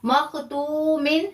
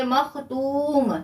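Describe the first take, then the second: First: मखतूमिन said slowly with the final -in sounded; full form with tanween. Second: मखतूम said very slowly, ending on a silent मीम; paused form. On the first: Teacher shows the unpaused recitation, slowly spelling out मखतूमिन. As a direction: recite मखतूमिन drawn out, ending clearly on -in. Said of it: "आप यहाँ रुक गए हैं तो मखतूमिन नहीं पढ़ेंगे". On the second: Teacher demonstrates stopping, very slow मखतूम with closed मीम. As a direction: stop on मखतूम and cut off the final vowels. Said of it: "मीम को साकिन कर दिया". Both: Shown as a demonstration.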